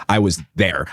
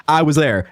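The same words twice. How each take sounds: First: Said in the usual way. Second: "I was there" lifted higher and firmer; firmly insisting, "I was there" hit up; emphatic insistence. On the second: Shown as a demonstration. Repeating her own line to the viewers, now firmer.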